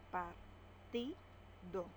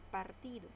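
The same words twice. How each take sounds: First: Partido slow, in separate beats par-ti-do; syllable by syllable. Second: Said in the usual way. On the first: Shown as a demonstration. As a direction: split Partido slowly. (Partido sílaba por sílaba, lento) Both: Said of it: "Separamos en sílabas".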